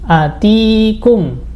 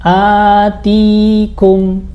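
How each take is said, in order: First: The first vowel is held short. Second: The first vowel is drawn out long. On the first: It means came to you. "nggak ada panjangnya" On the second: It means gave you. "hamzahnya ada alifnya, jadi panjang"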